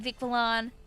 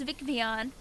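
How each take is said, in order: First: The double L is said as an L sound. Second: The double L is said as a Y sound. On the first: The speaker calls it wrong. "until I realized I was wrong" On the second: The speaker calls it right. "the double L makes that like Y sound"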